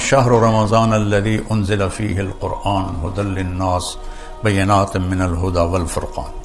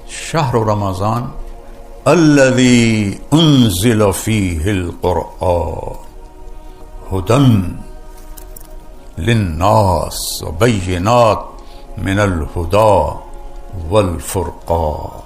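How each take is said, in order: First: The pitch stays fairly level throughout. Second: The pitch rises and falls, highlighting Quran.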